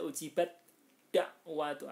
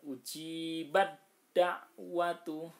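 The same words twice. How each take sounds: First: "ujibat da'watu" with a crisp t kept before the d; unmerged ta, wrong. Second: "Ujibat da'watu" recited slowly as ujibad-da'watu; merged ta, correct. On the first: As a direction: say "ujibat da'watu" as separate sounds, t then d. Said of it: "ndak boleh dibaca". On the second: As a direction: chant "Ujibat da'watu" with t melted into a doubled d, long vowels. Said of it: "dalnya ditasdidkan". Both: Shown as a demonstration.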